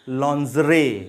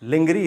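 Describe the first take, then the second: First: The word begins with 'lon' and a soft 'zh'. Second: The word begins with 'lin' and a hard 'g'. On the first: The speaker calls it right. "The right pronunciation is लॉन्जरे" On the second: The speaker calls it wrong. "लिंगरी इसका गलत pronunciation है"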